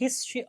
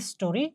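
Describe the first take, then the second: First: The middle vowel is dropped, giving two syllables. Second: All three syllables are said, with the middle vowel. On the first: "উচ্চারণের সময় হিস্ট্রি" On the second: "লেখার ক্ষেত্রে হিস্টোরি"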